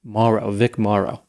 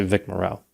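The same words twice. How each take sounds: First: MORROW said MAH-roh, first syllable long and open; "Morrow" slowly as MAH-roh, stressed up front; alternate pronunciation. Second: MORROW said muh-ROH, first syllable reduced; speaker's usual pronunciation. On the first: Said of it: "some people said the pronunciation is". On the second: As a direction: say "Morrow" quickly with a short muh, weight on ROH. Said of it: "I always say". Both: Shown as a demonstration.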